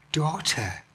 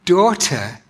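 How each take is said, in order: First: Tender daughter. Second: "Daughter" said a bit louder and leaned on; "Daughter" with firm stress, not woman. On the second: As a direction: lean into the word "Daughter" to correct yourself. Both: Shown as a demonstration. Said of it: "not just woman".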